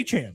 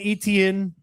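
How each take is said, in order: First: The name is said like ay-chan. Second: The name is said like et-ee-en. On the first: This is how he now says his name. "That's what he's saying is his name now" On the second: This is how the name was always said. "who's been Etienne his entire"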